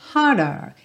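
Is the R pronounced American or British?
British. The R is dropped, British style.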